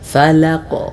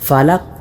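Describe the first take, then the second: First: The final q ends with a bouncing echo. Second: The final q stops flat without an echo. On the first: The speaker calls it right. "ഇങ്ങനെ തന്നെ ഉച്ചരിക്കണം" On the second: The speaker calls it wrong. "ഖൽഖല അഥവാ ചലനശബ്ദം എന്ന ആ ഒരു സിഫത്ത് കൊടുക്കാതെ"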